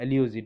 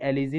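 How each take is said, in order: First: The middle syllable sounds like 'lyoo'. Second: The middle syllable sounds like 'li'. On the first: The speaker calls it right. "इसके एल्यूजी होता है" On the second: The speaker calls it wrong. "इसे एलिजी नहीं बोलेंगे"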